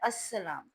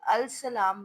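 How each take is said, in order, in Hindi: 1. L silent है और S दोहरा हो जाता है। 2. L की आवाज़ साफ़ बोली जाती है। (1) "तलफ़ुज़ में लाम जो है साइलेंट हो जाता है" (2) "तो ये अल सलाम बनता है"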